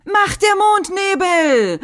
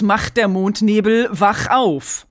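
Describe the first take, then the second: First: High, slow transformation cry; bright magical girl. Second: Said in the usual way. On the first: Retold or imitated. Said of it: "dieser Verwandlungsspruch, den Bunny sagt". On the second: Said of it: "Es heißt ganz zweifellos".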